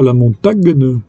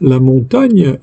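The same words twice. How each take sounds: First: The g and n are said as separate sounds. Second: The gn is said as one ny sound. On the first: The speaker calls it wrong. "non pas" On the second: The speaker calls it right. "on dit"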